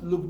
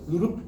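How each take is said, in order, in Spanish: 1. El primer ruido es un solo sonido. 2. El primer ruido está desdoblado en dos sonidos. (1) "no es loop, dup" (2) "hay un desdoblamiento del primer ruido"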